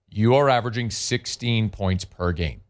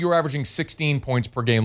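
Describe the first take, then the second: First: It is said slowly and deliberately. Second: It is said at a normal speed.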